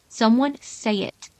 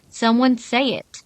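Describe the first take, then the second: First: It is said at a normal, quieter volume. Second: It is said noticeably louder.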